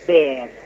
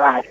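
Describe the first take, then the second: First: The name is said with an 'e' vowel. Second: The name is said with an 'a' vowel. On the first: This follows the name's German origin. "habría que pronunciarlo Ber" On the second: This is the Spanish-adapted form everyone uses. "Yo ya lo castellanicé"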